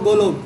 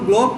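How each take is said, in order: First: A vowel is inserted between the 'g' and 'l'. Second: The word begins with a tight 'gl' consonant cluster. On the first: This is how people from a particular region say it. The speaker calls it wrong. "বরিশালের মানুষ এইভাবে উচ্চারণ করতে পারে না, ... এরা বলবো গোলব" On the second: This is the standard pronunciation. The speaker calls it right. "এই যে বলবো গ্লোব"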